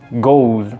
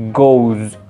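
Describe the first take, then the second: First: The word ends in a buzzing z sound. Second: The same.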